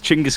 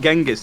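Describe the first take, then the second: First: The name begins with a 'ch' sound. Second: The name begins with a soft 'j' sound. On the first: The speaker calls it right. "It's Chinggis Khan" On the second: The speaker calls it wrong. "the actual pronunciation is not Genghis"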